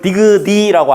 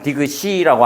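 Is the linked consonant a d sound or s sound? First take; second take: d sound; s sound. First: The linked consonant is pronounced as a d sound. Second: The linked consonant is pronounced as an s sound. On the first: It follows the regular linking rule. "디귿이라고 안 하고" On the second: It is the exception people actually use. "사람들이 그렇게 발음해가지고"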